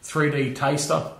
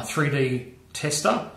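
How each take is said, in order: First: "taster" opening on TASTE, vowel gliding; taster with long a. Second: "tester" opening on TEST, short vowel. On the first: Presenter offering the other pronunciation, "taster" with long a. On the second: Presenter trying a German tool's name, "tester" with short e. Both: Shown as a demonstration. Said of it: "how they pronounce it".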